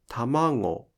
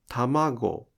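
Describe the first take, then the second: First: The g sound comes out through the nose. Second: The g sound is a plain, non-nasal stop.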